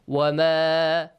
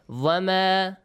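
First: The word begins with a w sound. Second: The word begins with a v sound. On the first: The speaker calls it right. "Wama, not vama" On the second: The speaker calls it wrong. "It's not correct"

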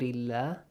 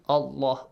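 First: The word is said with a thin, light A. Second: The word is said with a full, heavy A. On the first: "the word Allah is pronounced with an A sound, lightly" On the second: "pronounce it with a heavy sound. Allah, Allah, this way"

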